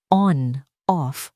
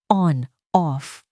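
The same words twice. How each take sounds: The two takes are said the same way.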